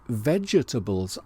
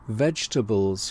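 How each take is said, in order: First: The first E is pronounced, giving four syllables. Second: The first E is silent, giving three syllables. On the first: The speaker calls it wrong. "I sometimes say vegetables" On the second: The speaker calls it right. "with the silent first E"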